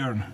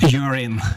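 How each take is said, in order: First: The name sounds like the English word urn. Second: The name sounds like the English word urine. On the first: It is the name's own pronunciation. The speaker calls it right. "it's simply urn" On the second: It is an English-style version of the name. The speaker calls it wrong. "they try to Englishify, Englishify it"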